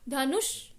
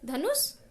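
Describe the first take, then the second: First: The final s is made with tongue curled up. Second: The final s is a plain dental s. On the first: The speaker calls it right. "हमारी टंग अपने आप ऊपर चली गई" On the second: The speaker calls it wrong. "धनुष सा नहीं बोलते"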